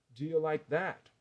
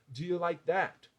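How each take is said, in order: The two takes are said the same way.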